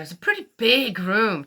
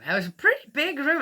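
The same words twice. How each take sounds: First: Said in the usual way. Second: "pretty" pushed up high, quick and bright; emphatic repeat. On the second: Real, not acted. Repeating to the audience how big the motel room was, emphatic and higher.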